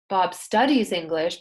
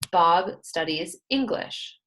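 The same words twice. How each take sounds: First: It is said with contrastive stress, sounding argumentative. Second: It is said in a neutral, plain way. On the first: The speaker has something to prove. "that's sounding like you have an attitude" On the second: This is a plain statement of fact.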